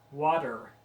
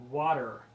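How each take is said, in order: Both takes have the same delivery.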